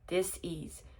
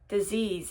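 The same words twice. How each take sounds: First: It is split into two separate parts. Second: It is said as one smooth, ordinary word. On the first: It means a lack of ease. The speaker calls it right. "She hyphen disease" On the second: It means illness. The speaker calls it wrong. "I might be saying that wrong"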